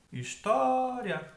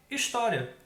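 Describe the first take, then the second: First: HISTÓRIA called high, TÓ held long; stretched stressed syllable. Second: Said in the usual way. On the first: Shown as a demonstration. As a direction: hold the TÓ in história, high and slow. (história chamada, alongando o TÓ) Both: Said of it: "Pronuncia a palavra como se estivesse chamando ela".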